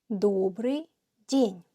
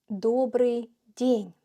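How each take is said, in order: No difference in how they are said.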